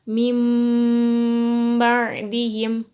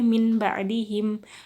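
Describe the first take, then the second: First: The first word ends with an m sound. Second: The first word ends with a plain n sound. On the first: The speaker calls it right. "Harus dibaca mim ba'dihim" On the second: The speaker calls it wrong. "membacanya nggak boleh min ba'dihim"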